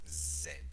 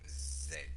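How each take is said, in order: First: The letter is said as 'zed'. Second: The same.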